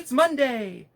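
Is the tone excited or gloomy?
excited. It is said in an excited, cheerful tone. The week's start is something to celebrate. The speaker calls it right. "I'm trying to say, woohoo"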